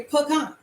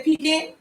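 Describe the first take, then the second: First: "pecan" said as puh-KAHN, with an open ah; puh-kahn pronunciation. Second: "pecan" said as PEE-can, with an ee first; pee-can pronunciation. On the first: Host shows viewers how other people say it, puh-kahn pronunciation of "pecan". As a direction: make "pecan" end in a broad kahn after a short puh. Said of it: "some people say pecan". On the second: Host shows viewers how some people say it, pee-can pronunciation of "pecan". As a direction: make the first vowel of "pecan" a long ee, ending in can. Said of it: "Some people say pecan". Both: Shown as a demonstration.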